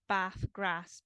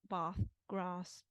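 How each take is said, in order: First: It is said in a northern English accent. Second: It is said in a southern English accent. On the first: "is the kind of northern form" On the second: "in the south, it'd be like"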